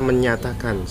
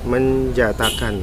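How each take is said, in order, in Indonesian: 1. Konsonan di tengah terdengar seperti 'y' dalam bahasa Inggris. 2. Konsonan di tengah terdengar seperti 'j' dalam bahasa Inggris. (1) "itu dibaca menyatakan sebenarnya ya" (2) "J-nya di sini ternyata pakai J ya"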